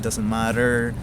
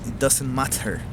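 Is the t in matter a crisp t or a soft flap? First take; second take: soft flap; crisp t. First: The t in matter is a soft flap. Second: The t in matter is a crisp t. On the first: "I acquired the American accent" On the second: "the actual T T pronunciations"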